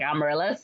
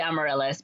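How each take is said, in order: First: AMARYLLIS said with a lisp, the S turned toward TH; imitated lisp. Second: Said in the usual way. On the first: Shy little boy says the girl's name, lisped Amaryllis. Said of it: "he's got a lisp". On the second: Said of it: "But he's got a lisp".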